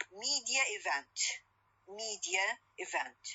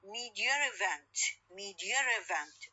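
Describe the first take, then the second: First: MEDIA EVENT as separate words, no r between; no intrusive r. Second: MEDIA EVENT merged as "media-r-event"; intrusive r. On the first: Teacher showing words before merging, MEDIA EVENT without r. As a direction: keep MEDIA ending in a plain vowel before EVENT. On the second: Teacher showing the two words merged, MEDIA EVENT with intrusive r. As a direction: slip an r between MEDIA and EVENT. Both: Shown as a demonstration. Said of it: "الري ساوند تظهر عندي لمن أدمج الكلمتين".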